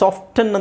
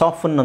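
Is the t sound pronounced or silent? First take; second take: pronounced; silent. First: The t sound is pronounced. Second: The t sound is silent. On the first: "ನೀವು ಟಿ silent ಮಾಡ್ಬೋದು, ಬಿಡ್ಬೋದು" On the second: "ನೀವು ಟಿ silent ಮಾಡ್ಬೋದು"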